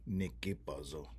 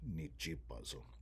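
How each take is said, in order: First: The second syllable starts with a k sound. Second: The second syllable starts with a ch sound. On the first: The speaker calls it wrong. "instead of saying nikipazo" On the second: The speaker calls it right. "it's going to change to nichipazo"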